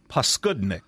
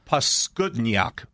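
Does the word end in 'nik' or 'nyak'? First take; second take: nik; nyak. First: The word ends with a short 'nik' sound. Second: The word ends with a 'nyak' sound.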